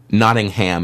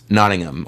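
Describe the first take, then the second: First: The H sound before the last syllable is heard. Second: The H sound before the last syllable is silent. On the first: The speaker calls it wrong. "instead of Nottingham" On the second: The speaker calls it right. "it's a silent H"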